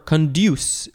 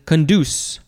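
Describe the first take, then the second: First: The d is followed by a y glide before oo. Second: The d is followed directly by an oo sound.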